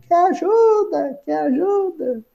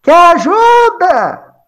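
First: High, soft, fading echo; distant drawn-out reverberation, dying away; imitated echo. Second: High, drawn-out call down a well; acted shout. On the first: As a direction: repeat the call softer each time, like a well's echo. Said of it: "Aí vem até o eco". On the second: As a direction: holler from far above, stretching the vowels. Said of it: "Jesus grita assim no poço".

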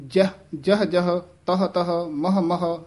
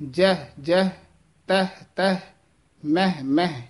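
First: ਜਹ ਜਹ, ਤਹ ਤਹ, ਮਹ ਮਹ with the wrong vowel ending; a wrong take of ਜਹ ਤਹ ਮਹ; wrong pronunciation. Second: ਜਹ ਜਹ, ਤਹ ਤਹ, ਮਹ ਮਹ said cleanly; the correct take of ਜਹ ਤਹ ਮਹ; correct pronunciation. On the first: Teacher shows students the wrong reading. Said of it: "ਇਸ ਤਰ੍ਹਾਂ ਉਚਾਰਨ ਨਹੀਂ ਕਰਨਾ". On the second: Teacher shows students the correct reading. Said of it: "ਇਹ ਸ਼ੁੱਧ ਉਚਾਰਨ ਹੈ". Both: Shown as a demonstration.

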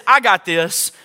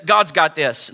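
First: Firm, self-assured claim; prideful boasting. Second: Low, settled assurance; peaceful. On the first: Preacher contrasting Pride with Peace, mildly cocky. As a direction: assert it like Pride would. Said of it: "Pride says". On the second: Preacher answering Pride as Peace, low and calm. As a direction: let it sink down calmly. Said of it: "Peace says". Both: Acted.

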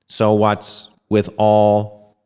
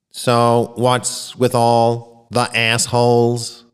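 First: Slow, stiff machine voice reading the message; a computer announcing words one by one; robotic voice. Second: Slow, stiff machine delivery; robotic voice. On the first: Alien computer reads its message aloud in a slow robotic voice. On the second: Alien computer announces its message to the auditorium, slowly and robotically. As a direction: read it like a computer speaking. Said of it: "the robotic voice announced". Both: Acted.

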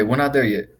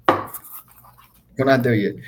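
First: Said in the usual way. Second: Very slow, quiet, stretched out; slow emphatic. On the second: Shown as a demonstration. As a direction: drag each word out slowly.

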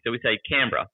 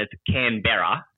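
First: Canberra clipped to a quick two-beat Aussie slur; lazy Aussie Canberra. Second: Canberra said slowly, every letter sounded as it is spelt; Canberra as written. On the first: Aussie showing her own lazy way, relaxed. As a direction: swallow the middle of Canberra. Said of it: "we're Aussies and we're lazy". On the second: Explaining the written form to an American friend, careful. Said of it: "say it how it's written". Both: Shown as a demonstration.

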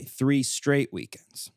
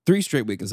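First: "Three straight weekends" slowly drawn out, word by word; emphatic repeat. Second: Said in the usual way. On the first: Real, not acted. Podcaster repeating himself in case listeners missed it, slow emphasis. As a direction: stretch out "Three straight weekends" to hammer it home. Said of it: "I don't know if you heard me".

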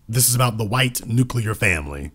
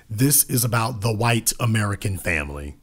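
First: Nuclear set apart and leaned on; weight the word nuclear; emphasis on nuclear. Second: Said in the usual way. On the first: Shown as a demonstration. Pointedly stressing nuclear to the audience. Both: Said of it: "Emphasis on the word nuclear".

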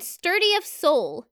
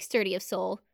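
First: Slow savoring. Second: Quietly, fondly; soft fond repeat. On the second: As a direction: murmur it fondly. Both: Shown as a demonstration. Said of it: "I actually really like".

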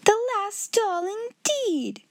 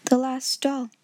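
First: High, indignant mockery; pitched-up scoffing headmistress; scornful echo. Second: Understated sorrow; a small, subdued child's reply; lightly voiced mournful girl; mournful little voice. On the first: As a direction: throw the words back in disdain. Headmistress mocks the girl's words. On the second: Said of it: "her little mournful voice had an odd sound". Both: A narrator's reading.

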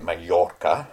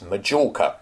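First: Majorca with a Y sound, "ma-YOR-ca"; Spanish-style Majorca. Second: Majorca with a hard J, "ma-JOR-ca"; English Majorca with a J. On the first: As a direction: say Majorca the modern way, no J. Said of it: "not in the, uh, way we now supposed to pronounce it". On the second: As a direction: say Majorca the old British way, J as in jam. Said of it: "definitely with a J". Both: Shown as a demonstration.

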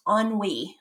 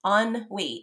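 First: Ennui said as "on-wee"; French pronunciation. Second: Ennui in two parts, "on... wee"; pronunciation demo. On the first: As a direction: pronounce ennui smoothly as "on-wee". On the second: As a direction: sound out ennui syllable by syllable, "on, wee". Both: Shown as a demonstration. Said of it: "it's pronounced ennui".

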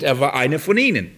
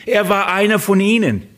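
First: Said in the usual way. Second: "Er" hit high and hard, then falling away; stress on er. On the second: Shown as a demonstration. Preacher driving home that Paul was one of them, stressing "Er". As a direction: lean hard on the opening "Er". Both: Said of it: "Das ist der Punkt".

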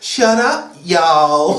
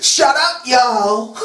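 First: Drawled, badly faked Southern accent. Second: Higher-pitched, hammed-up Southern "shut up"; mock Southern shout-down. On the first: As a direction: drawl the "y'all" with pitch dropping. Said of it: "drawled a singer's name". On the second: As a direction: scold them in a fake Southern twang. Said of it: "Oh, drawl".

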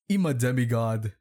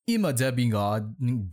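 First: Said in the usual way. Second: "demigod" misread with a muddled middle; misread word. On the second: Shown as a demonstration. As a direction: stumble over the middle of "demigod", like "debbingod". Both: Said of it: "can you even fucking read".

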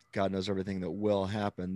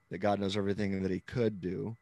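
First: WILL marked against the alternative; stress on WILL. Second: COULD marked with a lift; stress on COULD. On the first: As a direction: lean lightly on "will". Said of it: "that I'm using now is will". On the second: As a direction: lean lightly on "could". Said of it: "the heavy emphasis on the word could". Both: Shown as a demonstration.

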